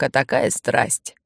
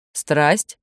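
First: Said in the usual way. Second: Puzzled echo rising on «Страсть»; surprised. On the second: A narrator's reading. Andryusha echoes the adult's word, «Страсть» rising in surprise. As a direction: lift «Страсть» into a surprised question. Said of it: "удивился Андрюша".

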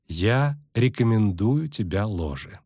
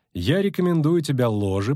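First: Deliberate, drawn-out "Я" and "рекомендую"; slow emphasis. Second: Said in the usual way. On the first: Acted. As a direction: stress on "Я", then slow "рекомендую". Repeats recommendation with firm emphasis.

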